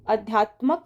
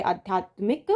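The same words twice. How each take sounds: First: अध्यात्मक ending in "-mak"; wrong final syllable. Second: आध्यात्मिक ending in "-mik"; correct final syllable. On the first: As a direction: say अध्यात्मक with no i after the m. (अध्यात्मक के अंत में "मक") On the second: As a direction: say आध्यात्मिक with a short i after the m. (आध्यात्मिक के अंत में "मिक") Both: Shown as a demonstration. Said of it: "की जगह आध्यात्मिक".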